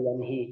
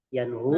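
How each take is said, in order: First: The vowel after the h is i. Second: The vowel after the h is u. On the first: "atau yanhi" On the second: "bukan yanhu"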